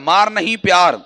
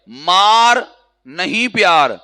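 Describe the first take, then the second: First: The pause comes after 'nahin'. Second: The pause comes after 'maar'.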